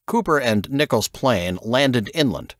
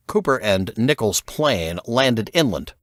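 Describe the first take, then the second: No difference in how they are said.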